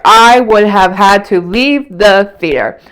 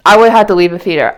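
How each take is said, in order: First: Slower, each word leaned on; repeating it slowly to drive it home; slow emphatic repeat. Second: Said in the usual way. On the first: Real, not acted. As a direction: drag it out for emphasis. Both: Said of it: "repeated line".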